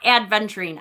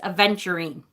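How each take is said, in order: First: A d sound comes before the v. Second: No d sound comes before the v. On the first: The speaker calls it wrong. "not adventurine. I do that all the time" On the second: The speaker calls it right. "It's A V. No D in there"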